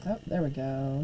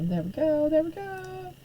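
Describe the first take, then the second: First: Said in the usual way. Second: Much higher, lilting sing-song; playful sing-song. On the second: Pretend. Teacher going live on Facebook, playful high sing-song. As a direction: toss it off in a high playful lilt.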